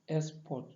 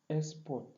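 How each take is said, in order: No difference in how they are said.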